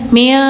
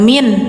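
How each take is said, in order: First: The n is hidden with a nasal hum. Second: The n is pronounced fully and clearly. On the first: The speaker calls it right. "disamar dengung" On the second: The speaker calls it wrong. "jadi gak min"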